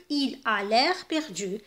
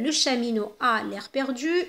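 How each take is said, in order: First: Very slow, clear read of il a l'air perdu; slow pronoun version. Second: Slow, clear reading of the example; slow model sentence. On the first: Teacher giving the pronoun version, very slowly. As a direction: stretch it out for the pupils. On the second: Teacher modelling the sentence before the pronoun swap, slowly. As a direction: read it out for the pupils. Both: Shown as a demonstration. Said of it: "إذن نقولوا".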